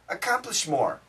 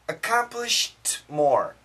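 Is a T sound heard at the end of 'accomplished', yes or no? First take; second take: no; yes. First: It is said fast, with no T sound before 'more'. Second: It is said slowly, with a T sound before 'more'. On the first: "And the faster I say it, ... You don't hear the T sound" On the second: "So if I say it slowly"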